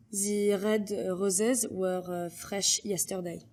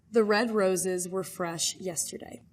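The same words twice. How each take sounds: First: Slow French-accented reading with French R's. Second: Said in the usual way. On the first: Shown as a demonstration. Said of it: "R's are distinctly very French".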